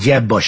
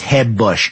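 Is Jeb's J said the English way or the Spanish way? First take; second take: English; Spanish. First: The J in Jeb is a hard English J. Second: The J in Jeb is a soft Spanish-style J.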